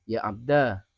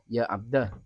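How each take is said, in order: First: The final vowel is long. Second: The final vowel is short. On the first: "ada alifnya" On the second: "tanpa alif"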